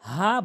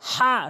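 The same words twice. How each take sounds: First: The h is a light, ordinary breathy h. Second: The h is a strong h from the throat. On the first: The speaker calls it wrong. "ভুল উচ্চারণ" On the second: The speaker calls it right. "হা সঠিক উচ্চারণ"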